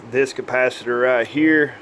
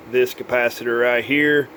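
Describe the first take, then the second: No difference in how they are said.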